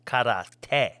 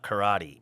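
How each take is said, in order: First: "karate" in Japanese, kah-rah-teh with a crisp t and even stress. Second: "karate" said the American way, kuh-RAH-dee. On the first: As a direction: say "karate" slowly, syllable by syllable, Japanese style. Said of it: "It is actually pronounced in Japanese karate". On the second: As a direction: flap the t in "karate", stress the middle. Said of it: "they would be like". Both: Retold or imitated.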